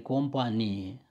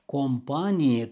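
First: Companie stressed on NI; second stress. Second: Companie stressed on PA, slowly; first stress. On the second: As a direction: say companie as com-PA-nie. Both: Shown as a demonstration. Teacher contrasting the two stresses of companie. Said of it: "Substantivele omografe".

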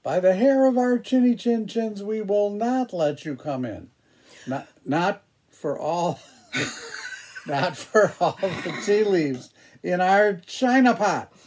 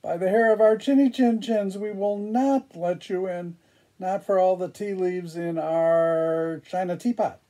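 First: High, small wolf voices; little wolves voice. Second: High, quick little wolf voices; little wolves voice. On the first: Wolves answer the pig. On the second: Wolves answer the pig again. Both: Acted. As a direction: squeak it like frightened little wolves.

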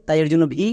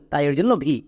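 No difference in how they are said.

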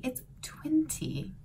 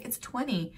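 First: Twenty said British, crisp t, slow and whispered; slow British twenty with a clear t; British accent. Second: Twenty said American, soft t, /twɛni/; plain American twenty; American accent. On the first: Son correcting mom, British twenty. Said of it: "in British English, it's twenty". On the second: Mom telling son the number, American. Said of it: "American English ... I'm gonna say twenty". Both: Retold or imitated.

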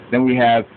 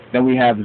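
No difference in how they are said.

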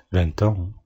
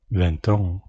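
Both takes have the same delivery.

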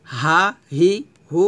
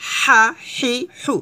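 First: Said in the usual way. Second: হা হি হু slow and pressed; pressed throat h. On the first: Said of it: "সাধারণভাবে". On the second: Shown as a demonstration. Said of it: "চাপ দিয়ে".

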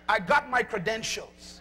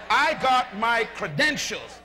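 First: Said in the usual way. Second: Slow, every word meant; slow and full of belief. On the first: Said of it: "use another word you might understand". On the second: Shown as a demonstration. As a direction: declare it like you really believe it. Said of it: "say it loud like you really believe it".

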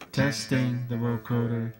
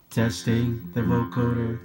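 Both takes have the same delivery.

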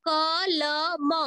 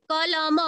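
First: कलम stretched very slowly, syllable by syllable; कलम said slowly so its last sound is heard; drawn-out syllables. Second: Said in the usual way. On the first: Shown as a demonstration. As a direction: draw out कलम so the final म carries its अ sound. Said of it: "अ sound जुड़ा हुआ है।". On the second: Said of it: "लेकिन म में क्या जुड़ा हुआ है?".

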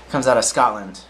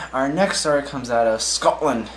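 First: A self-mocking stab at a Scottish accent, barely changed from the usual voice; bad Scottish accent. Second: Said in the usual way. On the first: Shown as a demonstration. Newsreader introducing the Scotland story, badly faked Scottish accent. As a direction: try the line in a clumsy Scottish lilt. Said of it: "I'm saying it with the worst accent in the world". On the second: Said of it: "I'm saying it with the worst accent".

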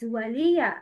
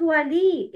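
First: ولي ending in "ya", "wa-li-ya"; fatha on ya. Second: ولي ending on a long "ee", "wa-lee"; missing fatha. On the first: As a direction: sound the final short "a" in ولي. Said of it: "يا has فتحة". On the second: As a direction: say ولي without the final "ya", as the mistake. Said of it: "Not ولي". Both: Shown as a demonstration.

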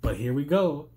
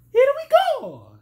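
First: Said in the usual way. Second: Much higher, loud Mario shout. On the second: Retold or imitated. Tired commentator tries the Mario catchphrase, squeaky high shout. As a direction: belt it out like Mario taking off. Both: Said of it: "I can't even do the Mario voice".

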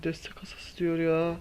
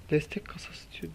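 First: Said in the usual way. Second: Breathy disappointed whisper of Destek kasası diyor. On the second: Real, not acted. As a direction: mutter it under the breath, deflated. Disappointed by another support crate. (fısıltıyla, hayal kırıklığıyla)

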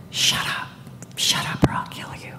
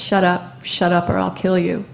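First: Whispered through clenched teeth; a menacing whisper, teeth clenched. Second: Said in the usual way. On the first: Retold or imitated. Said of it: "telling me in clenched teeth". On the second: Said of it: "if he said that once".

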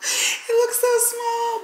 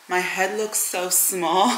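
First: High squeaky repeat. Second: Said in the usual way. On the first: Shown as a demonstration. Vlogger squeals about her small bun.

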